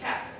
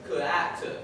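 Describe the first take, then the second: First: The k blends straight into the vowel. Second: An extra vowel separates the k from the rest. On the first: The speaker calls it right. "instead of cat" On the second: The speaker calls it wrong. "if they've learned "k,""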